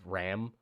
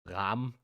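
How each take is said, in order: First: The vowel is not an open 'ah'. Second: The vowel is an open German-style 'ah'. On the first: "instead of" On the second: "I sort of just pronounce the A like an ah, like a German ah"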